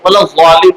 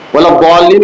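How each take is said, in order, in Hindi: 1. मुख्य व्यंजन एक z ध्वनि है। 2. मुख्य व्यंजन एक भारी d-जैसी ध्वनि है। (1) "पढ़ते हैं ज़ा से" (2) "की जगह पर"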